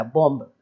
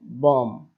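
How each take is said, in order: First: बॉम्ब said with the final b sounded, bomb; wrong with b. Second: बॉम्ब said as bom, slowly, no b at the end; silent b. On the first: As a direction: pronounce बॉम्ब wrongly, ending on a clear b. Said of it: "बॉम्ब नहीं कहता". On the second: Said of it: "केवल इतना ही बोलता है". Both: Shown as a demonstration.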